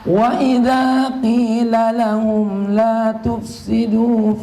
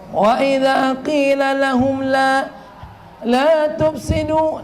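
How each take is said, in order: First: The phrase flows on without a break. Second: The phrase stops midway and restarts. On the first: The speaker calls it right. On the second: The speaker calls it wrong.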